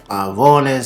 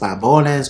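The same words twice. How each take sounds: First: The V is said as a clear V sound. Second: The V is softened toward a B sound.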